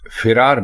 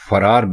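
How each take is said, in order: First: The first syllable has an 'i' vowel. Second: The first syllable has an 'a' vowel. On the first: The speaker calls it wrong. "फिरार बिल्कुल गलत है" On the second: The speaker calls it right. "फरार बिल्कुल दुरुस्त है"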